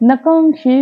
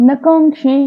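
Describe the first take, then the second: Both takes have the same delivery.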